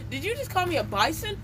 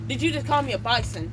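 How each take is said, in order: First: Higher, rising, outraged question; teacher's mock outraged accusation rising high; indignant accusing question. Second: Said in the usual way. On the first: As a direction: throw the accusation back at the kid, voice climbing. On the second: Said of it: "Let's just say".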